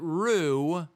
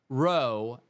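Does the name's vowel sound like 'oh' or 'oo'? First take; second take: oo; oh. First: The vowel sounds like 'oo'. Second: The vowel sounds like 'oh'.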